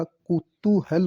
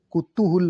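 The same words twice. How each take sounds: First: कुतूहल slowly as "ku-tu-hal"; slow, careful "ku-TU-HAL" for कुतूहल; correct pronunciation. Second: कुतूहल said as "kutuhul"; wrong pronunciation. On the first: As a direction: separate कुतूहल, ending in "hal". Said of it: "कुतूहल होता है". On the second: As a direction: end कुतूहल on a "hul" with u. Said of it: "कुतूहल नहीं होता". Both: Shown as a demonstration.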